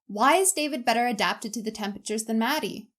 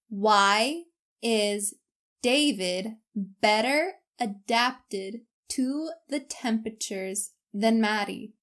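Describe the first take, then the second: First: It is spoken at an ordinary conversational speed. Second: It is spoken at a much slower speed. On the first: "once at my normal speed" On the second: "once at a much slower speed"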